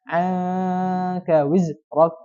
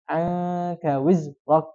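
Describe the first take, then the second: First: The z sound is stopped short and held back. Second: The same.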